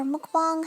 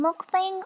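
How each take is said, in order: First: Mukbang with an open "ah" in the last syllable; alternate pronunciation. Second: Mukbang with a thinner front vowel in the last syllable; alternate pronunciation. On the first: Nail artist offering viewers another way to say it, mukbang ending like "bahng". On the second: Nail artist offering viewers one way to say it, mukbang ending like "bang". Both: Shown as a demonstration. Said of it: "however you wanna say it".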